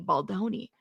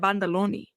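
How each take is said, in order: First: The name is said as Baldoni. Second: The name is said as Bandaloni. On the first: The speaker calls it right. "Ba is it Baldoni?" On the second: The speaker calls it wrong. "I'm calling it Bandaloni"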